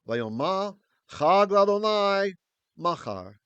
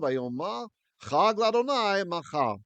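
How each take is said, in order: First: It is read slowly and carefully. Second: It is read at a normal speaking pace.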